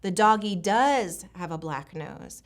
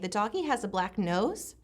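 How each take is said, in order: First: It sounds like a statement, with verb stressed. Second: It sounds questioning, rising at the end.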